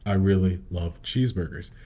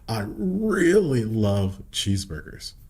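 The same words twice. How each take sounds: First: Key words are said plainly without stretching. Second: Key words are stretched out with strong emphasis.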